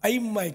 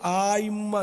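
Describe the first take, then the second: First: The first vowel is short. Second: The first vowel is long. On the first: The speaker calls it right. "अइम्मा अलिफ पर जबर है, मद नहीं है" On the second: The speaker calls it wrong. "आइम्मा नहीं है"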